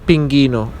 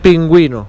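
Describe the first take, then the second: First: The u after the g is silent. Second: The u after the g is pronounced. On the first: The speaker calls it wrong. "not pinguino" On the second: The speaker calls it right. "because of the two points"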